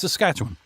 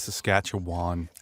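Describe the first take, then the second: First: The syllables are clipped and run together. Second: Every syllable is pronounced fully and clearly. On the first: The speaker calls it right. "it's Saskatchewan" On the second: The speaker calls it wrong. "don't say Saskatchewan"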